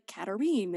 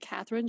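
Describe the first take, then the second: First: The name is said with French pronunciation. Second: The name is said with English pronunciation. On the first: "should be like Katarine" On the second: "that I would normally say Catherine"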